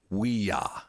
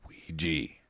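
First: The second syllable is said like 'ya'. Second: The second syllable is said like 'jee'. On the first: This is the original French and German form. The speaker calls it right. "it's we-ya instead of we-gi" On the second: This is the common American form. The speaker calls it wrong. "Americans fuck it up"

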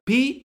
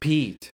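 First: The name is said loudly. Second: The name is said quietly.

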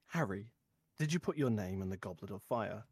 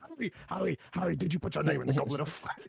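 First: It is asked in a calm voice. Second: It is asked in an agitated voice.

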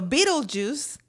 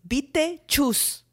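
First: It is pronounced the normal English way. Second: It is pronounced as spelled, Spanish style. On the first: "So Beetlejuice" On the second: "they actually is Beetlejuice"

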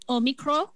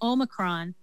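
First: It is said the Greek way, with no final n. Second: It is said with the English pronunciation. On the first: "apparently the Greeks call it Omicron. With no N" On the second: "The English say Omicron"

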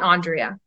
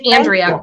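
First: The first vowel sounds like 'on'. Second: The first vowel sounds like 'an'. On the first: The speaker calls it wrong. "not Andrea" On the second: The speaker calls it right. "And it's Andrea"

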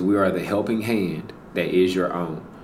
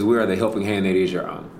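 First: It is spoken at a slower, deliberate pace. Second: It is spoken at a quicker, ordinary pace.

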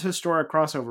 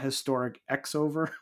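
First: The X part is said as the word cross. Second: The X part is said as the letter X. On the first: The speaker calls it right. "it is Historic Crossover, right?" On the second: The speaker calls it wrong. "Not Historic X-over"

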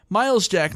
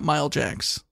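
First: The s sound ends the first word. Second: The s sound ends the second word. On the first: The speaker calls it right. "Miles Jack, not Mile Jacks" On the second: The speaker calls it wrong. "not Mile Jacks"

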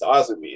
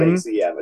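First: The name is said as one word. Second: The name is spelled out letter by letter. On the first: The speaker calls it right. "It's Azumi" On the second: The speaker calls it wrong. "it's not AZM"

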